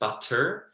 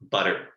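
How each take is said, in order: First: The T is pronounced crisply with emphasis. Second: The T is softened to sound like D. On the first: The speaker calls it wrong. "with the T's, butter, isn't said with that much emphasis on the T" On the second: The speaker calls it right. "I would almost write it with a D instead"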